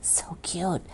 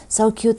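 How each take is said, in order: First: So cute whispered with no voice at all. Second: Said in the usual way. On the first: Real, not acted. Admiring a friend's gift card, in a whisper. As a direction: hush it to a delighted whisper.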